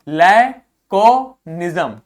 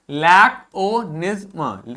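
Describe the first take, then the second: First: लैकोनिज्म drawn out slow and loud; slow model pronunciation. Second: लैकोनिज्म repeated slowly, ending with a light schwa. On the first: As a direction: say लैकोनिज्म slowly for students. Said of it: "दूसरा देखो". (धीमा, ज़ोर से उच्चारण) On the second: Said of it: "क्या हो गया?". (धीमा दोहराव) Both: Shown as a demonstration.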